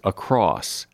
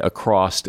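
First: The word ends with a plain s sound. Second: The word ends with an added t sound. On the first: The speaker calls it right. "but there is no ED. The word is across" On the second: The speaker calls it wrong. "People say acrossed as if there is an ED on the end"

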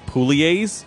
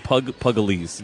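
First: The name is said without a g sound. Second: The name is said with a g sound. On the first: The speaker calls it right. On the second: The speaker calls it wrong.

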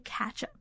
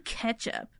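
First: The first syllable sounds like 'catch'. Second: The first syllable sounds like 'ketch'. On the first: "I say catch up" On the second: "I don't say ketchup"

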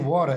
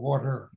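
First: It is said with a New England accent. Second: It is said with a non-New England accent. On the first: This is how the speaker's home region says it. "I'm from New England, so I say water" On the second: This is how people elsewhere say it. "instead of water"

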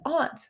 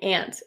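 First: The word is said the East Coast way. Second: The word is said the Colorado way. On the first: "The East Coast says aunt" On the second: "when we moved to Colorado, people kept saying aunt, and it was weird"

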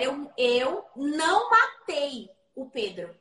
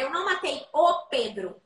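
First: The stress is on "matei". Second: The stress is on "Pedro".

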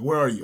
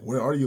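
First: The question sounds stern and accusing. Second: The question sounds gentle and caring. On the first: You're about to get in trouble. "like my mom saying that after, like, I broke a dish" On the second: I want to connect with you. "Like, I want to connect with you"

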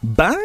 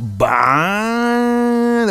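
First: It sounds disapproving. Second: It sounds admiring.

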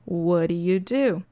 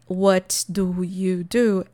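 First: The words run together into one reduced chunk. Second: Each word is said clearly and separately. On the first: "Ela talvez conecte tudo" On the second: "A pessoa talvez não fale"

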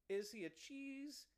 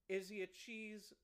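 The two takes are said the same way.

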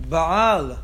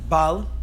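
First: The guttural sound is pronounced with emphasis. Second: The guttural sound is dropped, giving a short vowel. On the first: It means master of strength. The speaker calls it right. "You should have in mind the ein and give it emphasis" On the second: It means lacking strength. The speaker calls it wrong. "not bal"

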